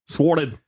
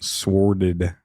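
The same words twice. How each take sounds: First: It is said in a put-on Australian accent. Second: It is said in the speaker's ordinary accent.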